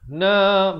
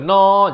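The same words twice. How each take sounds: First: The vowel is said with a narrower mouth opening. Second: The vowel is said with the mouth wide open. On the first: The speaker calls it right. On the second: The speaker calls it wrong.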